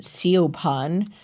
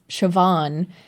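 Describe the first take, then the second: First: The name is sounded out following its spelling. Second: The name is said the traditional Irish way. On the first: The speaker calls it wrong. "walking around pronouncing Siobhan, like, you're gonna look really stupid" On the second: The speaker calls it right. "if the kid's name was Siobhan"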